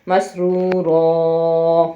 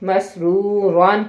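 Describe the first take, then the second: First: مسرورا ending in a long open aa, no n; pausal form with long a. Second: مسرورن read through with the full -an ending; with tanween, no stop. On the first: Teacher shows students the stop, slow with a long aa. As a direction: stop on مسرورا, drawing the last vowel out into aa. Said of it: "دوسری زبر الف کے ساتھ مل کے الف مدہ کی آواز بنائے گی". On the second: Teacher shows students the word before a stop, nunation sounded. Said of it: "اس کا مطلب ہے اب یہاں پہ مس رک جائے، وقف کر دیں". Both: Shown as a demonstration.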